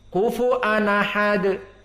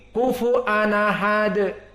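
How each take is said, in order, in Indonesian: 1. Hamzah hilang dan kedua kata menyambung. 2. Hamzah hilang dan kedua kata menyambung.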